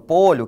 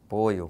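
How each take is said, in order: First: The middle consonant is an 'ly' sound. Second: The middle consonant is a 'y' sound.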